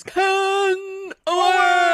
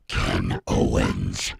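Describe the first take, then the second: First: Big booming ring announcer call; wrestling announcer. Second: Low, slow, deadpan name; flat deadpan. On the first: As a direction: belt out the name like a ring announcer. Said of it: "the wrestler announcer where it goes". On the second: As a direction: say it flat and unexcited. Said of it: "it usually sounds like this". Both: Retold or imitated.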